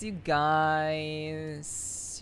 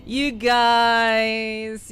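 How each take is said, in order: First: Said in the usual way. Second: High, loud, stretched-out "you guys"; drawn-out tease. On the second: Pretend. Teasing chat about accents.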